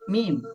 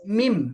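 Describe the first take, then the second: First: The lips close together softly on the m. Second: The lips press together hard on the m. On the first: The speaker calls it right. "Nutupnya pelan aja dia" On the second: The speaker calls it wrong. "mulainya dari begini, mim. Nah, itu salah"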